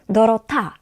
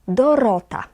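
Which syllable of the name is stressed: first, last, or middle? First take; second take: last; middle. First: The stress is on the last syllable. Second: The stress is on the middle syllable. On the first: The speaker calls it wrong. "Nie na ta, bo wtedy to brzmiałoby Dorota" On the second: The speaker calls it right. "Na ro"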